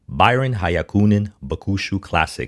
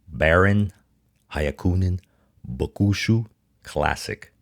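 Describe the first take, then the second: First: The name is said in a smooth, flowing way. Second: The name is said in a choppy, robotic way. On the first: The speaker calls it right. "I'm gonna try to say that smoothly" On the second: The speaker calls it wrong. "I sounded like a robot there"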